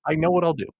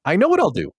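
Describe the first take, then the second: First: Said in the usual way. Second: High and louder, a sudden bright idea; mock eureka; excited idea.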